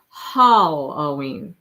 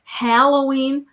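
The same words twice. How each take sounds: First: Halloween with a long "hall" up front; slow Halloween, first syllable like hallway; second radio version. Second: Halloween with "hal" as in "hat", stretched; slow Halloween, wide short-a up front; first radio version. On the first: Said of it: "I don't say it either way". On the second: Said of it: "That's what it was". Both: Shown as a demonstration.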